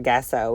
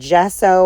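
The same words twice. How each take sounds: First: The word begins with a hard G sound. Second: The word begins with a soft J sound.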